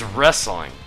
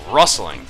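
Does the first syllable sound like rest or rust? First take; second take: rest; rust. First: The first vowel sounds like the one in rest. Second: The first vowel sounds like the one in rust. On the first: The speaker calls it right. "but it's, it's wrestling" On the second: The speaker calls it wrong. "I say rustling. To me, that sounds normal"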